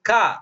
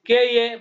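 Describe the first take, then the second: First: One blended syllable is said, ka. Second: Two separate letter names are said, kay and ay. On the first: The speaker calls it right. "கேயே கிடையாது" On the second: The speaker calls it wrong. "கே ஏ படிச்சீங்கன்னா பிரயோஜனமே இல்ல"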